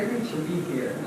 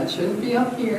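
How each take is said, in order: First: Said in the usual way. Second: Placed a little high and pushed louder; pushed up, slightly high; wrong placement. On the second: Shown as a demonstration. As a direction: show the voice sitting too far up.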